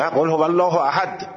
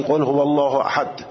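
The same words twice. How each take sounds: First: قل هو الله احد, الله rising; recited again. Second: قل هو الله احد with a slightly firm احد; slightly hard. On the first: Teacher contrasting second recitation. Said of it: "نه". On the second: Teacher showing slightly hard احد. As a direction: press احد a little. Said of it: "اگر یه مقدار سفت بگی". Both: Shown as a demonstration.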